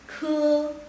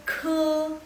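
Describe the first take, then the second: The two takes are said the same way.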